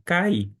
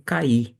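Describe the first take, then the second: First: Said in the usual way. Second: "cair" as two syllables, ka-Í; stress on final i. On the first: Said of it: "Eu mantenho cai". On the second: Shown as a demonstration. Teacher showing how some pronounce it, "cair" said ka-Í. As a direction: put the beat of "cair" on the I, silent r. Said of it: "alguns pronunciam como".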